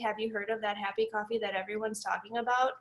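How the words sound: It is said flatly, like a robot.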